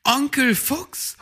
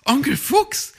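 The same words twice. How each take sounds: First: High, loud call across the clearing; young hare calling eagerly. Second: High, loud call, a bit louder; young hare calling eagerly. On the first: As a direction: call to the fox, voice rising high. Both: Acted. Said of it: "rief Weißohr".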